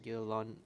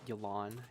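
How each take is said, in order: First: The name is said with a Chinese-style pronunciation. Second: The name is said with an American pronunciation. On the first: The speaker calls it right. "it'd probably be better to pronounce it like" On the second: The speaker calls it wrong. "I'm gonna pronounce it the American way"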